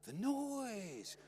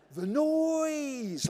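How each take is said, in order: First: High, soft, stretched-out mock suffering; brother's hushed parody of an agonised father; imitating pained dad. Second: High, loud, long drawn-out wail; exaggerated dad imitation. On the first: Brother walking round the house, imitating pained dad. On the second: Brother mocking dad's catchphrase, loud exaggerated wail. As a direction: blow up the father's pained catchphrase. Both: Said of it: "my brother used to imitate it".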